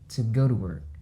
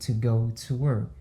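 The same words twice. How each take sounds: First: Each 'to' is reduced and linked to nearby words. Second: Each 'to' is pronounced fully and separately. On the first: This is how native speakers say it. The speaker calls it right. "La dit" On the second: This is not how native speakers say it. The speaker calls it wrong. "Mais natif là pas dit"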